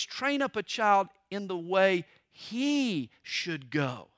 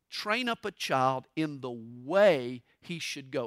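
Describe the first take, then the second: First: Slow, with "he" lifted and rising; stress on he. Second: Slow reading with the weight on "way"; stress on way. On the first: Pastor showing the Hebrew emphasis, stress on "he". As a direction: put the weight on "he", not on "way". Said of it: "it's on the word he". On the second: Pastor showing the common misreading, stress on "way". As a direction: lean on the word "way", not on "he". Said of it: "they place the emphasis on the word way". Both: Shown as a demonstration.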